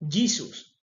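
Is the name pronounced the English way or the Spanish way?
English. The name is said with English pronunciation. "En inglés se dice"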